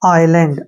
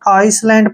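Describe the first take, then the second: First: No s sound is pronounced before the l. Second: An s sound is pronounced before the l. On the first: The speaker calls it right. "एस को pronounce नहीं करेंगे" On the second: The speaker calls it wrong. "इसको अक्सर बहुत ही mistake से पढ़ते हैं"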